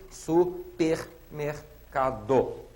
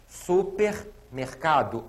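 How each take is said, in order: First: "Supermercado" stretched very slowly with a rise; very slow demo word. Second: "Supermercado" drawn out; slow demo word. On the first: Teacher repeating "Supermercado" very slowly. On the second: Teacher showing "Supermercado" slowly. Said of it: "o R agora está seguido". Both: Shown as a demonstration.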